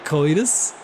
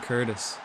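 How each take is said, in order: First: The name is said in a put-on American accent. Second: The name is said in the speaker's own accent. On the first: "It's definitely an American accent" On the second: "I pronounce his name Curtis"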